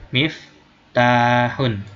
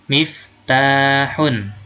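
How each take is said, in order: Both takes have the same delivery.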